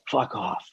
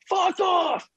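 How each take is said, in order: First: It is said very quietly. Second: It is yelled loudly.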